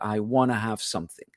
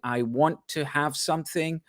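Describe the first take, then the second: First: 'Want to' is run together as 'wanna'. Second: Both words of 'want to' are said in full. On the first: "they will contract that into" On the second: "rather than saying"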